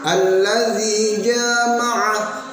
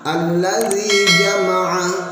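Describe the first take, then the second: First: The vowel after the j is drawn out long. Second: The vowel after the j is kept short. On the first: It means to have intercourse. The speaker calls it wrong. "salah baca ... artinya tidak lagi mengumpulkan namun menggauli" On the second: It means to gather. The speaker calls it right. "bermakna mengumpulkan kalau dibaca pendek semuanya"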